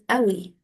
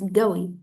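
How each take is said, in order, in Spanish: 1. La palabra empieza con un golpe glotal. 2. La palabra empieza con un sonido G fuerte. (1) "En Egipto decimos Awi" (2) "en Arabia Saudí y en los países del Golfo la dicen como Ga"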